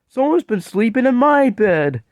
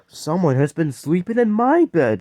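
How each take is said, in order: First: It is said in a sweet, tiny voice. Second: It is said in a medium-sized voice.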